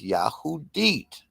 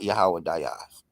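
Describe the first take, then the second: First: The name is said with a 'hoo' second syllable. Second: The name is said with a 'weh' second syllable. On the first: The speaker calls it right. "The proper pronunciation is Yahudit" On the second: The speaker calls it wrong. "not Yahweh Dayas"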